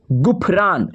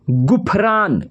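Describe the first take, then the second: No difference in how they are said.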